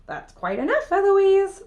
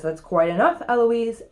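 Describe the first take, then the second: First: Mocking echo that shoots up high on the name; cheeky parroting, louder and higher at the end; mimicking the tutor. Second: Firm, measured reprimand; lightly voiced cross tutor; angry tutor. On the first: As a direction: copycat taunt. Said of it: "And I say". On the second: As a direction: put your foot down, mildly stern. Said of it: "Here's what makes Philip angry".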